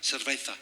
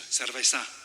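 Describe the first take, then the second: First: It is said with a Castilian Spanish accent. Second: It is said with a Mexican Spanish accent. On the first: "in Castilian Spanish, the word... cerveza" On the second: "in Mexico we say cerveza"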